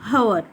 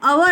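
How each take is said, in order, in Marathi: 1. हा शब्द स्पष्ट ऐकू येणाऱ्या h आवाजाने सुरू होतो. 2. हा शब्द थेट स्वरापासून सुरू होतो. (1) "नॉट हवर" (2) "आपण अवर असं म्हणतो"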